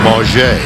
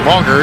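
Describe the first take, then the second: First: The name is pronounced the French way. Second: The name is pronounced the usual English way. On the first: This is how the player now asks it be said. The speaker calls it right. "pronounce it the French way" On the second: This is how the name was long said. The speaker calls it wrong. "for years he's been known as Quincy Mauger"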